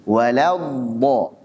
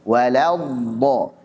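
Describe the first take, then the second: Both takes have the same delivery.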